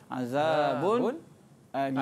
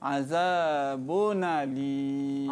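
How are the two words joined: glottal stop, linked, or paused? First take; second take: paused; linked. First: A brief silent pause separates the two words. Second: The n runs straight into the next vowel. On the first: "Yang ketiga dia baca dengan saktah" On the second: "Dibaca dengan naqal"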